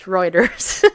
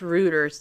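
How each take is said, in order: First: The name is pronounced in its usual way. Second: The name is pronounced the way it is spelled. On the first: "but anyway, it's Reuters" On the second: "should be pronounced Reuters the way it's sound there"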